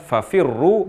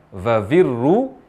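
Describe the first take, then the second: First: The word begins with an f sound. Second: The word begins with a v sound. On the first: The speaker calls it right. "mengucapkan fafirru" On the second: The speaker calls it wrong. "ini perubahan huruf fa menjadi huruf v"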